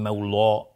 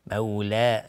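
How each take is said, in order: First: مولا with a dark L and rounded o-like ending; wrong heavy L. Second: مولا with a light L and fronted long a; thin L. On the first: Teacher showing the mistake to avoid, heavy L in مولا. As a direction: thicken مولا wrongly, like mawlo. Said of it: "نمیگیم مولا". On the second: Teacher showing the correct form, thin L in مولا. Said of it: "باید نازک تلفظ بشه". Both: Shown as a demonstration.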